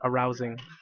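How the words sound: It runs together as a single word. It means sexually exciting. The speaker calls it wrong. "not arousing"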